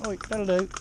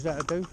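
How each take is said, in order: First: Sharp, higher rebuke; sharp scolding to the ponies. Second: Said in the usual way. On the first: Shown as a demonstration. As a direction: pull them up sharply. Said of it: "see me tone of voice then?". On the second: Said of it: "All I said was".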